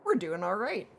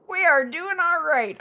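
First: Said in the usual way. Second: Proud repeat, "are" pitched up and punched; emphatic "are". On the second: Shown as a demonstration. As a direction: stress on "are", higher and louder.

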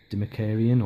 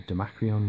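First: "Demakarian" ending in -karian; first pronunciation. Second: "Demacrion" ending in -crion; alternative pronunciation. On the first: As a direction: say "Demakarian" with a full "ka" syllable before "rian". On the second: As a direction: say "Demacrion" with "c" and "r" run together. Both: Shown as a demonstration. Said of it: "however you pronounce it".

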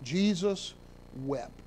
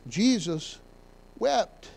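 First: "Jesus" then a long pause, and "wept." falls; "Jesus ... wept." slow, with a weighty pause; solemn pause. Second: "Jesus ... wept." with "wept." pitched up; lifted repeat. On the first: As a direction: let the pause after "Jesus" hang before "wept.". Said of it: "shortest verse ... but what power". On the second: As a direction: raise "wept." above "Jesus" after a short pause. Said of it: "Nothing wrong with that". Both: Shown as a demonstration.

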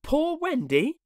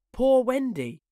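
First: High "Poor Wendy" rising into a question; puzzled echo. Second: High, falling wail of a weary bird; plaintive moan. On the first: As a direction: repeat "Poor Wendy" wonderingly, tune going up. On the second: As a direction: moan "Poor Wendy" mournfully. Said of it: "it moans". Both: A narrator's reading.

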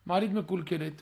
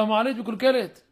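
First: Said in the usual way. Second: Louder, pressing announcement about the elevator; insistent complaint. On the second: Retold or imitated. Son at the door demands the elevator fixed, loud and insistent. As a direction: say "המעלית מקולקלת" loud and demanding, a push.

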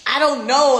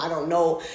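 First: Higher and louder burst of "I don't know"; exasperated. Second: Said in the usual way. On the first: Real, not acted. Insisting to her followers, exasperated and loud. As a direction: throw up "I don't know" in frustration. Repeated denial.

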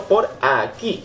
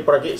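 First: Slow, leaning hard on "por" in "por aquí"; stress on por. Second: Said in the usual way. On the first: Shown as a demonstration. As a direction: drag out "por aquí" and hit "por". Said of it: "no tengo que ir por aquí". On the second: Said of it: "sino por aquí".

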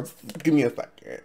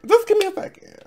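First: Said in the usual way. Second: Much higher, stress on Just; high-pitched repeat. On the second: Real, not acted. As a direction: say Just give me a second up high, leaning on Just.

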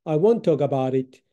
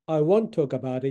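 First: "I won't" with a silent T, taught slowly; won't without the T. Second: Said in the usual way. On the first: Shown as a demonstration. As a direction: say "won't" with the T barely sounded, slowly. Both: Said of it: "Tはほとんど発音しない".

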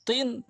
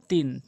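First: তিন with rounded mouth and heavy t; dark, round-mouthed t in তিন. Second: তিন with wide mouth and light t; thin, spread t in তিন. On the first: Teacher contrasts two letters, heavy round তিন. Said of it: "তটা মুখ একটু বেশি গোল". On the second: Teacher contrasts two letters, light spread তিন. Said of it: "তাটা মুখ একটু ওসার". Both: Shown as a demonstration.

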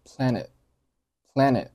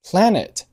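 First: "planet" with the final t held, not released; unreleased t. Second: Said in the usual way. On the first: Shown as a demonstration. Teacher showing learners "planet" with a silent, stopped t. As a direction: set the tongue for t and swallow it in "planet". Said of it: "结尾的t并没有爆出来".

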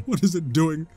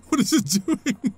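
First: Said in the usual way. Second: Higher, laughing disbelief. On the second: Real, not acted. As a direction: laugh through the question in disbelief. Laughs at the odd puzzle.

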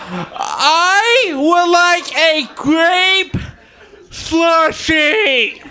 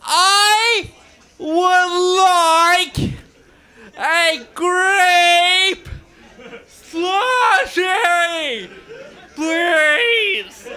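First: Very slow, high, drawn out; ordering a grape slushie, dragged out and high. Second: High, slow, tearful whine; repeating the slushie order, high and tearful; crying plea. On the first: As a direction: stretch every word of the order slowly, pitched up. His order at Sonic. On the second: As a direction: beg for the slushie through mock tears. Repeating his order, near tears. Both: Retold or imitated.

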